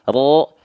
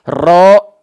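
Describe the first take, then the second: First: The r is trilled lightly but crisply. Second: The r is trilled long and heavily. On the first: The speaker calls it right. "Tetap ada getarannya walaupun sedikit" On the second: The speaker calls it wrong. "yang nggak boleh itu getaran terlampau banyak-banyak"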